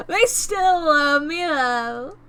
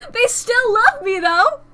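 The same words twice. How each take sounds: First: Slower, stretched-out, settling exclamation; drawn-out repeat. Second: High, loud burst of delight; excited exclamation. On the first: Streamer savouring still being loved, drawn-out repeat. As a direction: draw out each word, easing down at the end. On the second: Streamer reacting to still being loved, excited high cry. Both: Real, not acted.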